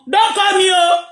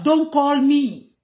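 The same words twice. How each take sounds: First: Raised warning. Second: Slow emphatic repeat. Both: Real, not acted. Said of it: "Don't do what?".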